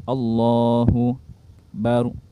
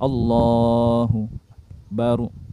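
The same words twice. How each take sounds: Both takes have the same delivery.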